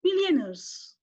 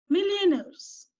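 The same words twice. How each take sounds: First: Millionaires said clearly, stress on MILL; teacher modelling millionaires; model pronunciation. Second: Millionaires drawn out slowly, higher, stress on MILL; teacher repeating Millionaires slowly; slow model pronunciation. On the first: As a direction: spell out millionaires in sound for the children. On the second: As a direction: stretch Millionaires so the class can repeat. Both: Shown as a demonstration. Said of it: "let us pronounce".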